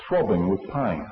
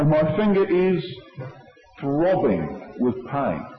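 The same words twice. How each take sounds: First: Said in the usual way. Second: Slow, drawn-out "throbbing with pain"; acted complaint of pain. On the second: Acts out the injured person.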